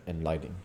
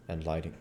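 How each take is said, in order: Both takes have the same delivery.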